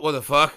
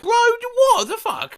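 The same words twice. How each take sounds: First: Said in the usual way. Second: Much higher, slower, stunned what the fuck; disbelieving cry. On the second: Real, not acted. Reacting to the bot's nonsense, high stunned disbelief. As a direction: pitch shoots up in sheer disbelief.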